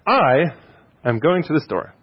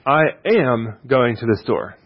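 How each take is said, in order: First: The word "I" is stressed. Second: The word "am" is stressed. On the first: It tells who is going. "you're answering the question, who's going?" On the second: It shows determination to go. "That you could be interpreted, I'm determined to go"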